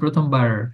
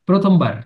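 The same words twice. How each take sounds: First: The r sounds like an English r. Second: The r sounds like a Bengali r. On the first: The speaker calls it wrong. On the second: The speaker calls it right.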